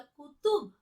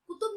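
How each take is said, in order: First: कुतुब with throaty q; deliberate dotted q in कुतुब; nukta कुतुब. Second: कुतुब with an ordinary front k, higher; undotted k in कुतुब; wrong कुतुब. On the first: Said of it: "कैसे बोलना हमें". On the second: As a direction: say कुतुब quickly with plain k. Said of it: "कुतुब नहीं बोला". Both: Shown as a demonstration.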